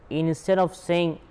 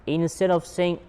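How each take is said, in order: Both takes have the same delivery.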